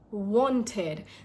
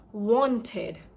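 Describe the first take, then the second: No difference in how they are said.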